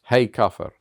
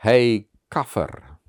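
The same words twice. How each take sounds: First: Shouted again, louder than his talk; retold yell. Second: A slow, louder shouted insult across the stage; retold yell. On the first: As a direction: call the slur out loud and hard. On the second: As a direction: bark the slur out slowly, to shock. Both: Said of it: "and he yelled".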